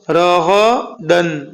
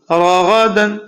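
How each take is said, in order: First: راغدن drawn out, syllable by syllable; slow reading. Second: راغدن said fast and joined; read quickly. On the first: Quran teacher to pupils, slow drill. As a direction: read راغدن slowly, each syllable apart. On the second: Quran teacher to pupils, quicker joined reading. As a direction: run راغدن together quickly. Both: Shown as a demonstration. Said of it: "لیکن اس کو جلدی پڑھیے".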